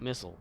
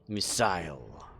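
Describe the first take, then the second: First: The word is said with an American pronunciation. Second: The word is said with a British pronunciation. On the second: "That's how you know he's British"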